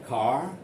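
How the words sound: It is said with a British English accent. "British people say car"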